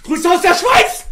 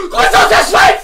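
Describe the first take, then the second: First: Said in the usual way. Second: "Grüße aus der Schweiz!" squeaked out much higher and louder, stress on "aus"; high squeaky greeting. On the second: Shown as a demonstration. ("Grüße aus der Schweiz!" quietschig hoch, Betonung auf "aus") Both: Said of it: "Von Investor Mann Bruce aus der Schweiz".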